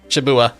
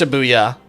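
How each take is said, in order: First: The y sound before the final vowel is dropped. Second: The y sound before the final vowel is present. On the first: The speaker calls it wrong. "I pronounced it wrong. I missed the Y in there" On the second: The speaker calls it right. "It's Shibuya"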